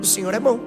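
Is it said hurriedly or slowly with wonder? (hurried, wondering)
hurried. It is said quickly and offhandedly. The reader thinks it is already known. The speaker calls it wrong. "Esse é o jeito errado de se relacionar com a Bíblia"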